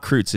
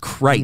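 First: The vowel rhymes with the word feud. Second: The vowel does not rhyme with feud. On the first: "Family feud. F-E-U-D" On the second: "it's Kreitz"

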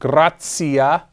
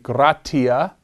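First: It is said with the ecclesiastical pronunciation. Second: It is said with the classical pronunciation. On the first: "That's the ecclesiastical pronunciation of that word" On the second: "The classical pronunciation would be"

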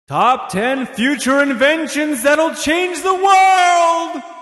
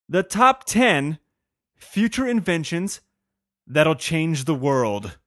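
First: It is said in a dramatic, showy way. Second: It is said in a plain, ordinary way.

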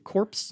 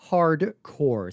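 First: The word ends with an s sound. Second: The word ends without an s sound. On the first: The speaker calls it wrong. "I used to pronounce it Corpse" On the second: The speaker calls it right. "That's Contra Hardcore, C-O-R-P-S"

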